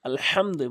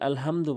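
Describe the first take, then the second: First: The h is a raspy sound from the throat. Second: The h is a light, plain breath. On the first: The speaker calls it right. "বড় হা রয়েছে" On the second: The speaker calls it wrong. "ছোট হাইনে বলে"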